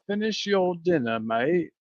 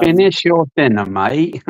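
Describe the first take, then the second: First: Clumsy English accent with a little Australian; a half-hearted English accent, a touch Australian; a weak try at an English accent; poor English accent. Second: Higher, louder English accent; bad English accent, a bit Australian; poor English accent. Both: Shown as a demonstration. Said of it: "a really poor English accent".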